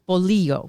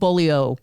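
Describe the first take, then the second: First: The ending is said as 'lee-yo', with a 'y' glide. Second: The ending is said as 'lio', without a 'y' glide. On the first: The speaker calls it right. "You got it" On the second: The speaker calls it wrong. "I have been mispronouncing that. I've been calling them bolio"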